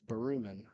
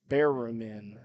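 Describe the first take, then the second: First: The first syllable does not sound like 'bear'. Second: The first syllable sounds like 'bear'. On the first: The speaker calls it right. "he says nope, it's Berumen" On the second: The speaker calls it wrong. "I think I tried to go Bear"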